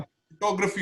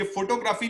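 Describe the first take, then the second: First: फोटोग्राफी with a short reduced ग्रə-फी; correct pronunciation. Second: फोटोग्राफी with a full long ग्राफी; wrong pronunciation. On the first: Teacher modelling the right form for a student. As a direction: fold ग्राफी into a quick ग्रəफी. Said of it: "फोटोग्राफी होता है". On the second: Teacher showing a student the common mistake. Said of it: "ये फोटोग्राफी नहीं होता". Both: Shown as a demonstration.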